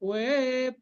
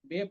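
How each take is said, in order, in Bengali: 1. শব্দটি w ধ্বনি দিয়ে শুরু হয়। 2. শব্দটি b ধ্বনি দিয়ে শুরু হয়। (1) "এটা ওয়েপ" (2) "বেপ কিন্তু নয়"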